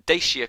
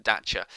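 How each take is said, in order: First: Said in the usual way. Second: Dacia said as DATCH-a; alternative pronunciation. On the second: Shown as a demonstration. Lecturer noting how the car brand Dacia is sometimes said, alternative pronunciation DATCH-a. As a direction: say Dacia with a "ch" in the middle. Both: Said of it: "sometimes pronounced Dacia".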